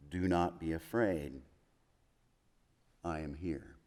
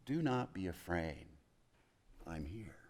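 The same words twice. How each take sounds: First: Tender reassurance. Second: Much softer, fading into a whisper; hushed comfort. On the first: Jesus comforting frightened disciples. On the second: Jesus softly reassuring his afraid disciples, almost whispered. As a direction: breathe it close like a secret reassurance. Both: Acted.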